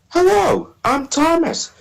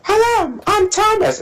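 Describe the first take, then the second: First: A put-on voice imitating the show's Thomas voice. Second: A put-on voice that sounds like another engine. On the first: "I started to follow his voice" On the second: "that sounds like Percy"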